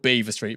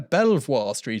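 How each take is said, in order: First: The name sounds like the word beaver. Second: The name is said the way it is spelled. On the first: The speaker is a local. The speaker calls it right. "it's pronounced Beaver" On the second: The speaker is not from the area. The speaker calls it wrong. "someone who's not from around town going"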